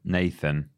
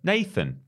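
First: It is said flatly, with little energy. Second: It is said with lots of energy.

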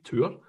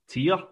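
First: The vowel sounds like 'oo', as in tour. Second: The vowel sounds like 'ee', as in tier.

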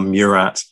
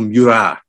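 First: The name is said with English pronunciation. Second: The name is said with French pronunciation.

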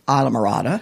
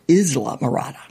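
First: The name is said with English pronunciation. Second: The name is said with Spanish pronunciation. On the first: This is the locally adopted form of the name. "we've adopted it, of course, and said Isla Morada" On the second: This is the original form of the name. "you're supposed to pronounce it Isla Morada. It's a Spanish word"

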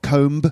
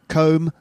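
First: The final b is pronounced. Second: The final b is silent. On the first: The speaker calls it wrong. "not comb" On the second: The speaker calls it right.

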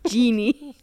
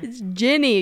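First: The first vowel sounds like 'gee'. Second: The first vowel sounds like 'gin'. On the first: The speaker calls it wrong. "the way you said it was weird" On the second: The speaker calls it right.

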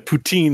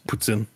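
First: The word ends with a long 'teen' sound. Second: The word ends with a short 'tsin' sound. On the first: The speaker calls it wrong. "Poutine is not" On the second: The speaker calls it right.

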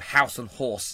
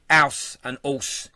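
First: It is said in a standard accent. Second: It is said in a Cockney accent. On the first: "instead of house and horse" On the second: "We say house and horse"

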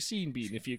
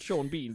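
First: The first name rhymes with Bean. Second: The first name does not rhyme with Bean. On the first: This is how the spelling looks. "it looks on paper to be Sean Bean" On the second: This is the actual name. "So it's Sean Bean"

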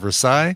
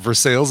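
First: The name is said with a French pronunciation. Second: The name is said with an anglicized pronunciation. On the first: This is the original European name. "instead of Versailles" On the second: This is the local name given by settlers. "we're going to spell or pronounce it Versailles"

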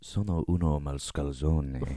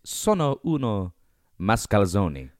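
First: It is said in a put-on character voice. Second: It is said in a plain, ordinary voice.

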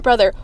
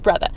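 First: The word ends in an 'er' sound. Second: The word ends in an open 'uh' sound. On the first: It is the standard spelling. "not brother" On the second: It is the casual slang spelling. "he spells it B-R-O-T-H-A"

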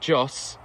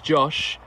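First: The name ends with a plain s sound. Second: The name ends with an sh sound. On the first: The speaker calls it wrong. "it's not Joss" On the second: The speaker calls it right. "it's Josh"

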